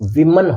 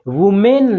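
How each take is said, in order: First: The first syllable starts with a 'wi' sound. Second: The first syllable starts with a 'woo' sound. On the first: The speaker calls it right. "ये विमन होता है फिर" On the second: The speaker calls it wrong. "ये वुमेन नहीं है"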